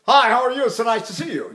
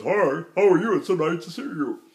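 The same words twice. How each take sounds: First: Normal diction. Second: Affected, artificially placed speaking voice; unnatural talking. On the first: Coach showing natural talk, normal diction. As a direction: say hello openly, with everyday diction. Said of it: "make my diction sound normal". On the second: Coach mocking unnatural diction, affected voice. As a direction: greet in a voice nobody really uses. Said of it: "Who do you know talks like this?". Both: Shown as a demonstration.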